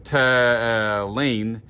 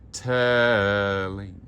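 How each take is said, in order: First: "telling" said hard and clipped; wrong telling. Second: Sung telling. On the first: Choir director showing singers the wrong "telling". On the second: Sung, choir director showing singers the right "telling". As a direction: sing "telling" open. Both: Shown as a demonstration. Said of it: "Instead of telling".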